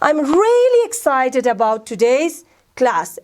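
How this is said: It is said with real excitement.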